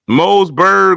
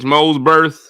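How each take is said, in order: First: The name ends with a g sound. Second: The name ends with a th sound. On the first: The speaker calls it wrong. "there was no G anywhere to be found" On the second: The speaker calls it right. "actually pronounced correctly with a T H"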